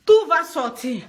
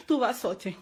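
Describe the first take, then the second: First: Said in the usual way. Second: "Tout va sortir" dropped much softer, trailing away; quiet resigned repeat; fading to quiet. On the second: Real, not acted. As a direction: let "Tout va sortir" sink to a near murmur. Repeats vow, then fades.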